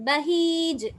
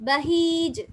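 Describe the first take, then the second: No difference in how they are said.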